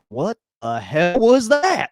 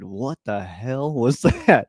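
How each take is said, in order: First: It sounds amazed and impressed. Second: It sounds annoyed and disbelieving. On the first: The throw was incredible. "Like that was amazing" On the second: The throw was a bad mistake. "you're good for maybe one one play a game, one throw a game"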